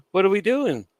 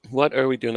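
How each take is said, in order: First: High, loud cry of what are we doing; exasperated disbelief. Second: Said in the usual way. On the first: Retold or imitated. Laughing at the Bloodline breaking character, in high disbelief. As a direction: throw it up in mock bewilderment.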